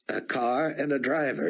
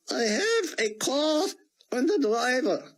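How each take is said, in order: First: Said in the usual way. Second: Put-on the old rabbi announcing "a car and a driver" in thick Hebrew-accented English. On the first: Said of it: "Buck repeats the rabbi's words". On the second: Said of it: "Buck fought to understand him".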